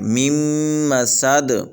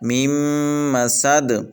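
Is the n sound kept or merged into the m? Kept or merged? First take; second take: merged; merged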